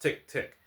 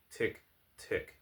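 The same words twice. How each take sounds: First: High, crisp spoken tick-tick; loud clock ticking. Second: Weak, barely voiced ticks; small, spaced-out tick, tick; feeble clock ticking. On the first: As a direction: voice an insistent clock, pitched up. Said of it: "The clock loudly measured". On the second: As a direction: let the damaged clock tick on faintly. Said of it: "continued to count feebly". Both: A narrator's reading.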